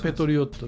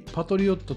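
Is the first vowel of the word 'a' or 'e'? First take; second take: e; a. First: The first vowel sounds like 'e'. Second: The first vowel sounds like 'a'. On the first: This follows the English pronunciation. The speaker calls it right. "英語的に表現するとペトリオットで" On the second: This is the common pronunciation in Japan. The speaker calls it wrong. "日本では一般的にパトリオットと表現する人が多い"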